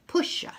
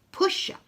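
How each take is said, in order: Both takes have the same delivery.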